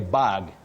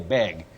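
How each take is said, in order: First: The vowel is open, like in 'cat'. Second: The vowel is raised, like in 'bed'. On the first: A container for carrying things. The speaker calls it right. "you say bag" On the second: It sounds like asking for something. The speaker calls it wrong. "don't say bag"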